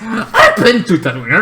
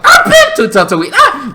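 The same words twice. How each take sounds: First: Laughing. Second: Higher, louder laughing boast of the guy from Tatooine; hammed-up braggart voice; mock Tatooine guy. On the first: Real, not acted. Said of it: "You know, right?". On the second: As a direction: blurt it out like a bragging local with a laugh. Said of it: "there is a guy on Tatooine that's like".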